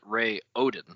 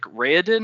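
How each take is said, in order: First: The name is split into clearly separate syllables. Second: The name is run together as one smooth word. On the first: "or is it Ray Odin?" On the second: "is it like Raoden all at once"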